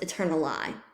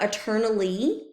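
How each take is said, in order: First: The last syllable ends with an 'eye' sound. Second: The last syllable ends with an 'ee' sound. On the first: This is the older pronunciation from when the poem was written. "when the poem was written, it would have been pronounced eternali" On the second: This is the modern pronunciation. "is how we would pronounce this word today"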